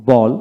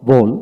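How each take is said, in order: First: বল as a lone word, open "aw" vowel; American বল for learners to copy; American pronunciation drill. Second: বোল as a lone word, rounded "oh"; British বোল for learners to copy; British pronunciation drill. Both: Shown as a demonstration. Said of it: "এইভাবে দুইটা উচ্চারণে পড়াবেন".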